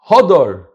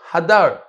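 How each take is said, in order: First: The first vowel sounds like 'o'. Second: The first vowel sounds like 'a'. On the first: The fruit is beautiful. The speaker calls it wrong. "Don't read it beauty" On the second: The fruit dwells on the tree. The speaker calls it right. "Read it with a patach"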